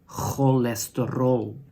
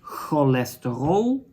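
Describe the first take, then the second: First: The word begins with a harsh throaty ch sound. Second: The word begins with a plain k sound.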